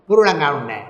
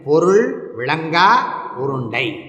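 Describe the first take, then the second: First: The words are slurred together, dropping syllables. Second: Each word is said fully with small pauses. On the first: The speaker calls it wrong. "அதையும் ஒழுங்கா சொல்லப்படாதோ" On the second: The speaker calls it right. "கொஞ்சம் நிறுத்தி சொல்லுங்க"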